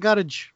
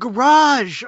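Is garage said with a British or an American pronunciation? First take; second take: British; American. First: Garage is said with a British pronunciation. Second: Garage is said with an American pronunciation. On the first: This is how a British relative says it. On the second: This is the familiar local way to say it.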